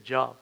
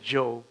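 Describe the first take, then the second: First: It sounds like the everyday word 'job'. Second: It sounds unlike the everyday word 'job'. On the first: The speaker calls it wrong. "We don't say Job" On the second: The speaker calls it right. "We say Job"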